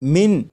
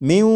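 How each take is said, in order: First: The final n is pronounced clearly. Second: The n merges into a nasalized w. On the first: The speaker calls it wrong. "जैसे लिखा हुआ है मिन मिन, लेकिन ... ये मिन नहीं पढ़ा जाएगा" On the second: The speaker calls it right. "बल्कि इसे पढ़ेंगे म्यू"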